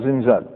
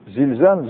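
First: زنزال said with n, zin-zaal; l swapped for n. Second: Said in the usual way. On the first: Shown as a demonstration. Teacher contrasting dialect n with standard l in زنزال. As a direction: replace the first l with n in زنزال. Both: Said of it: "يبدلوها اللام".

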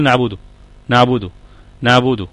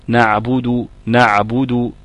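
First: "نعبده" with the عين said lightly and further forward, as in everyday speech; everyday fronted ain. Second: "نعبد" with the عين pressed deep in mid-throat, a slight bubbling on the sukun; deep bubbling ain. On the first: Teacher showing students the common ain in "نعبده", said lightly. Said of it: "احنا بنقول". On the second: Teacher showing the correct classical ain in "نعبد", deep and bubbling. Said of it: "كده تبقى فصيحة مية في المية". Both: Shown as a demonstration.

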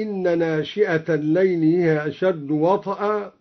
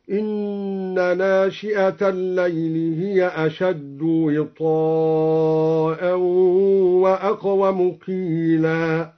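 First: Said in the usual way. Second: وطئا as wiTaa'an, kasra on waw and long a; slow recitation stretching وطئا; long wita'a. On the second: Shown as a demonstration. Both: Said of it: "بكسر الواو وفتح الطاء ممدودة".

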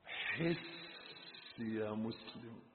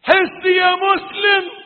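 First: Very soft, low and drawn out; hushed plea. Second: High, very loud preacher's shout; shouted plea. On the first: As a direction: slowly breathe the appeal to the believer. (مناشدة خافتة بطيئة) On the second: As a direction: cry out to wake the believer. (صيحة وعظية عالية) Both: Real, not acted. Same appeal, hushed then shouted.

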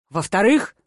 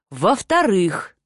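First: "Во-вторых?" with a questioning rise; puzzled echo question. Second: "Во-вторых" drawn out slowly with a falling end; dawning realization. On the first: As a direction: ask "Во-вторых?" back, pitch lifting at the end. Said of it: "хмурясь переспросил он". («Во-вторых?» переспросить с вопросительной интонацией) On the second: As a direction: say "Во-вторых" slowly, settling downward as a statement. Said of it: "стал кристально чистым и осмысленным". («Во-вторых» медленно, с осознанием, интонация вниз) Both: A narrator's reading.

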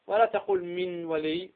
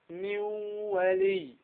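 First: من ولي with the nun clearly pronounced; the mistake to avoid; wrong reading. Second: من ولي with the nun merged into the waw; slow high nasal merge of من ولي; merged ghunna. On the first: Teacher contrasting the wrong way. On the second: Teacher giving the correct idgham. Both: Shown as a demonstration.

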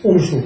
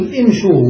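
First: امشوا said "umshuu", starting on "u"; faulty opening damma. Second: امشوا said "imshuu", starting on "i"; opening kasra. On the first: Teacher showing what not to say, امشوا as "umshuu". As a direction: put a wrong "u" at the start of امشوا. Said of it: "ولا نقول امشوا". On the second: Teacher showing what is said, امشوا as "imshuu". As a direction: keep the first vowel of امشوا an "i". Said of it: "نقول امشوا ولا نقول امشوا". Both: Shown as a demonstration.

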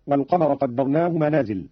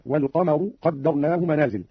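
First: Said in the usual way. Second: والقمر said "wal-qamaru", ending in u. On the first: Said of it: "قرأ قالون برفع الراء". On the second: Shown as a demonstration. Teacher shows Qalun's reading, والقمر ending "-ru". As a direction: end والقمر on a short u after the raa. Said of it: "برفع الراء هكذا".

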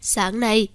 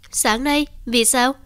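First: Said in the usual way. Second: Surprised echo. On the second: A narrator's reading. Son echoes in disbelief.

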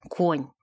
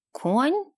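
First: Low, flat scornful конь; flat dismissive repeat. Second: Sharp rising indignant question; high, incredulous Конь?; indignant surprise. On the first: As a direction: repeat it with a scoff. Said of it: "повторила она". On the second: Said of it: "возмутилась Юсуфа". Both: A narrator's reading.

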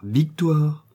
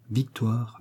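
First: Louder, higher call of her name; sharp reproving call. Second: Said in the usual way. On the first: A narrator's reading. Old husband checking his angry wife, sharp raised call. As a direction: pull her up short. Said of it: "en branlant la tête".

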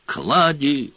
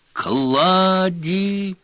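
First: Firm call into the dark. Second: High, urgent yell of a name; desperate shout. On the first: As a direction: call a name down the corridor. Searching the castle, calling a name. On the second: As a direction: shout it, fearing the worst. No answer, calls again louder. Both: A narrator's reading.

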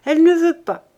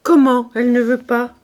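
First: Put-on higher, louder boyish voice; a boy pushes the words out roughly; hoarse boy. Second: Louder, angry outburst on "Comment"; indignant cry. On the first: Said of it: "d'une voix enrouée". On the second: Acted. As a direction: Lazare cries out in disbelief. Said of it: "s'écria Lazare".

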